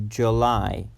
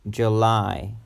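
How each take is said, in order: No difference in how they are said.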